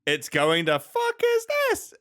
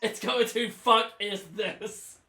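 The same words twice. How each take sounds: First: A stunned, rising echo; repeating the verdict in shock; incredulous question. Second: Drawn-out, weighty verdict; stating the tier name with mock gravity; slow deliberate restatement. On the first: Real, not acted. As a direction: shoot way up on the question in disbelief. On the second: Shown as a demonstration. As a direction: spell out the tier name slowly.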